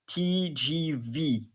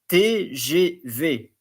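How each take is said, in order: First: The letters are spoken with English letter names. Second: The letters are spoken with French letter names. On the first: The speaker calls it wrong. "and not T G V" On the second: The speaker calls it right. "I advise you to pronounce it like T G V"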